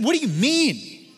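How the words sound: It is said with snarky exasperation.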